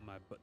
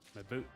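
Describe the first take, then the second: First: The vowel sounds short, like 'butt'. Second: The vowel sounds long, like 'boot'. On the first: The speaker calls it wrong. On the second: The speaker calls it right.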